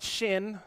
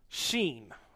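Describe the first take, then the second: First: The vowel is a short 'i' sound. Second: The vowel is a long 'ee' sound. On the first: The speaker calls it wrong. "not shin" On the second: The speaker calls it right.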